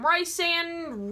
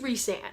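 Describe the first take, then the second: First: The name is said the commonly heard way. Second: The name is said the author's intended way. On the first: The speaker calls it wrong. "People call him Rhysand" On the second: The speaker calls it right. "It's Rhysand, and I love it, and it's perfect"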